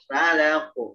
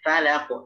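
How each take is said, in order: First: A vowel is drawn out as if lengthened. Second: The vowels are kept short and quick. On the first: The speaker calls it wrong. "Jangan falaq. Seakan-akan nanti ada tambahan kayak huruf alif" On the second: The speaker calls it right.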